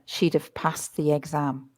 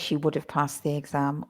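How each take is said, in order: First: She would is contracted quickly into she'd. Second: She would is said as two full words. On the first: "if you're go- speaking really fast, listen" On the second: "you can say she would have passed the exam"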